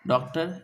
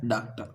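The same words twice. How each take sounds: First: डॉक्टर with an o vowel and a sounded final r; wrong way. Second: डॉक्टर with an open a vowel, like "daktə"; right way. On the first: Teacher showing students the wrong reading: डॉक्टर with o and a final r. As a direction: say डॉक्टर as "doctor" with the r. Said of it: "गलत". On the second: Teacher giving students the correct reading: डॉक्टर said "daktə". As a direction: open the first vowel of डॉक्टर to a and drop the final r. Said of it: "इसे क्या पढ़ा जाता है". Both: Shown as a demonstration.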